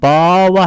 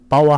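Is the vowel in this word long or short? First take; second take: long; short. First: The vowel is drawn out long. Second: The vowel is kept short. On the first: It means sex or gender. "길게 발음하면 성이고" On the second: It means existence. "짧게 발음하면"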